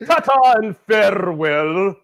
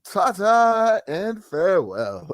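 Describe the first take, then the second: First: Slow, lightly posh sign-off; a touch of a gracious goodbye; mock farewell. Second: Slow, drawn-out mock-posh farewell; grand farewell. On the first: Cohost echoes the drunk man's polite farewell. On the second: Host mimics the arrested man's grand sign-off. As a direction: bid farewell like a lord. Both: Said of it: "He signed off".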